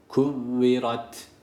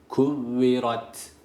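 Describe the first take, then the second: Both takes have the same delivery.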